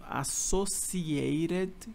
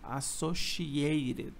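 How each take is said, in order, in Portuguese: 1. A consoante do meio é um som de 's' simples. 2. A consoante do meio é um som de 'sh'.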